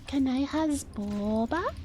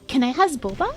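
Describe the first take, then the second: First: The O in boba is drawn out long. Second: The O in boba is said short.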